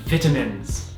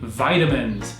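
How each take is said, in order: First: It is said with a British pronunciation. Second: It is said with an American pronunciation. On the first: The speaker calls it right. "it's vitamins" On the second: The speaker calls it wrong. "the way Americans say vitamins"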